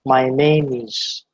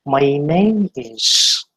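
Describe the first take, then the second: First: "My name is" said slowly with a flat my; the wrong way, "my" clipped; wrong version. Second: "My name is" very slow with a full glide in "my"; correct version. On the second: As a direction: model it slowly and clearly. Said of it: "It should be like that". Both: Shown as a demonstration.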